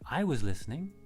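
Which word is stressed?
I. The stress falls on the word I. Someone else did listen, namely the speaker.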